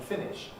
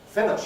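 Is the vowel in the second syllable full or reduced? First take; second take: full; reduced. First: The second vowel is a full, clear vowel. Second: The second vowel is weakened toward a schwa. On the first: "you can't hear it in my pronunciation" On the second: "you can hear that weakening of the ish"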